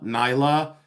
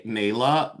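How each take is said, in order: First: "Nyla" said with a long "eye" sound, NYE-la; corrected name. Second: "Nayla" said with a long "ay" like "nail"; misread name. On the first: Greeting a viewer, corrects the name to "Nyla". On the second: Reading a viewer's name, first gets "Nayla" wrong. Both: Real, not acted.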